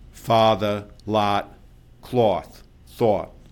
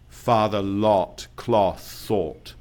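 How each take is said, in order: First: The words are said in a New York accent. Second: The words are said in an English accent.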